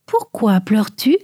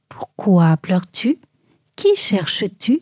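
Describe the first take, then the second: First: Soft voice. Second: Lower, slow, hushed whisper; gentle whisper. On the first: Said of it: "demanda l'un d'une voix douce". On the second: Jesus to weeping Marie, slow low whisper. Jesus speaks from behind her. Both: A narrator's reading.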